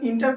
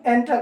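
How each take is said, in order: First: The first vowel sounds like 'i' in 'in'. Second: The first vowel sounds like 'e' in 'end'. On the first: The speaker calls it wrong. "बहुत सारे बच्चे इसका pronunciation इंटर करते हैं, जो कि वो गलत है" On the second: The speaker calls it right. "इसे हम एंटर कहते हैं"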